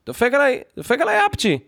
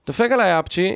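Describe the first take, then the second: First: Exclaimed indignantly. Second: Said in the usual way. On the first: Retold or imitated. Retelling the cat's sneeze.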